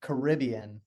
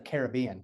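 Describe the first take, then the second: First: Caribbean as kuh-RIB-ee-un; stress on the second syllable. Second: Caribbean as care-uh-BEE-un; stress on the third syllable. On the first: Retold or imitated. Co-host quoting the other's slip, Caribbean as kuh-RIB-ee-un. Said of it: "because you just said". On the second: Shown as a demonstration. Co-host correcting the other, Caribbean as care-uh-BEE-un. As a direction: put the BEE forward in Caribbean. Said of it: "instead of Caribbean".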